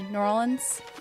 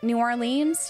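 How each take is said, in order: First: It is said the way locals pronounce it. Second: It is said the way outsiders pronounce it. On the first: The speaker is from the place. The speaker calls it right. "if you're a native, you say New Orleans" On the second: The speaker is not from the place. The speaker calls it wrong. "people say it that way"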